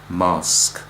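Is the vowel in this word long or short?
long. The vowel is long and open, as in calm. "long A of British"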